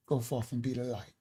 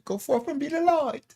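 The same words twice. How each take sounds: First: Said in the usual way. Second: High, lilting British accent imitation; imitating a UK listener's sign-off in a British accent. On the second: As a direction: mimic a British woman's blessing, pitched way up. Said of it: "she says with a U K accent".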